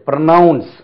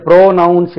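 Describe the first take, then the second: First: ப்ரொனவுன்ஸ் with a short, light first syllable; ப்ரொனவுன்ஸ், weight on "nounce"; correct pronunciation. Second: ப்ரோனவுன்ஸ் with a long "PRO"; ப்ரோனவுன்ஸ், first syllable stretched like pronoun; wrong pronunciation. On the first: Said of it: "இது ப்ரொனவுன்ஸ்". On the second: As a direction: say ப்ரோனவுன்ஸ் wrongly as "PROH-nounce". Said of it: "இது ப்ரோனவுன்ஸ் இல்ல". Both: Shown as a demonstration.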